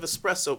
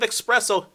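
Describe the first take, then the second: First: It begins with 'es', with no k sound. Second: It begins with 'ex', with a k sound. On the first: The speaker calls it right. "I specifically pronounce that some bitch properly" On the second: The speaker calls it wrong. "you have the temerities to then respond with"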